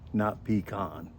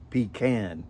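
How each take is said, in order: First: The second vowel is an 'ah' sound. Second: The second vowel is a short 'a' sound. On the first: The speaker calls it wrong. "There's no double A to make it a ah sound" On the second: The speaker calls it right. "You can look at the spelling of pecan and see that it says pecan"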